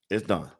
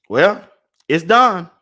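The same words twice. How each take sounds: First: Lower, much softer "It's done" to himself; quiet repeat. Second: Excited announcement. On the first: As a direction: let it fall away almost under his breath. Repeating the finished order. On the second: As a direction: call it out like a win. Announcing the finished order. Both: Real, not acted.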